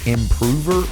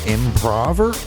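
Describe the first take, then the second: First: It sounds like improve with -er, stress second. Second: It sounds like improv with -er, stress first. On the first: He improves something. "if he's doing is improving something" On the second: He does improv. "or if he's doing improv"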